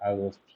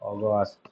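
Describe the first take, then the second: First: The first vowel is an open 'ah' sound. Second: The first vowel is a rounded 'aw' sound. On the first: The speaker calls it wrong. "আ আসবে না" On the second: The speaker calls it right. "অ উচ্চারণ আসবে"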